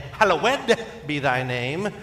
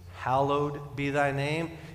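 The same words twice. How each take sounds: First: The ending of hallowed is stressed. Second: The ending of hallowed is not stressed.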